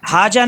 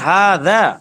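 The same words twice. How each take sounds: First: The middle consonant is a z-like sound. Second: The middle consonant is a voiced 'th' sound. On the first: The speaker calls it wrong. "हाजा नहीं" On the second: The speaker calls it right. "जाल से"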